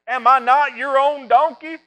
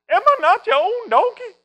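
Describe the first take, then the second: First: It is said in the speaker's normal voice. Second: It is said in a put-on cartoon voice.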